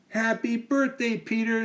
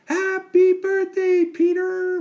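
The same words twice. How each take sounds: First: Put-on high girlish greeting; Amy's voice. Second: Very high, loud, slow squawking parrot. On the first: Amy greets Peter at his party, high girl voice. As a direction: greet him sweetly as a girl. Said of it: "said Amy". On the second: Acted. The parrot repeats Amy's greeting, loud high squawk. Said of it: "repeated the parrot".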